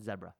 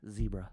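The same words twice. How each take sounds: First: The word is said the British way. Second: The word is said the American way. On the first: "in actual British English, it would be it would be said zebra" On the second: "we're Americans, so we got to be different"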